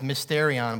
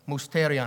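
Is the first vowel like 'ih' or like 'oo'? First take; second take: ih; oo. First: The first vowel sounds like 'ih'. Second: The first vowel sounds like 'oo'. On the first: This is the usual English way to say it. The speaker calls it wrong. "in English, we'd probably pronounce it as mysterion" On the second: This is the original Greek way to say it. The speaker calls it right. "I think it's pronounced mousterion"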